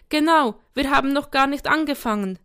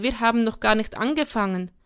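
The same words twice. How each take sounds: First: Put-on higher, louder child's protest; raised, affronted kid voice; indignant. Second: Said in the usual way. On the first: A narrator's reading. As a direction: protest like an outraged little boy. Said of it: "empörte sich Sam".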